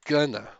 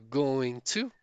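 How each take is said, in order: First: The two words blend into one reduced word. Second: The two words are said fully and separately. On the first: This is the most common, natural spoken form. "a contração falada, é essa aqui, ó, pessoal" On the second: This is acceptable but sounds less smooth. "Vocês podem também falar going to"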